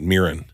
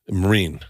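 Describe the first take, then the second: First: The name sounds like 'Mirren', rhyming with 'mirror'. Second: The name sounds like the word 'marine'. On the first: The speaker calls it wrong. "everyone pronounces it Mirren" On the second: The speaker calls it right. "You said her name right. ... That's how you say it"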